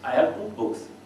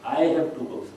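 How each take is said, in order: First: The stress falls on the word books. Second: The stress falls on the word I.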